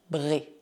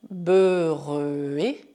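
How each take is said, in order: First: The syllable is said quickly. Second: The syllable is said slowly. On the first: "depois cada vez mais rápido" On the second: "primeiro devagar"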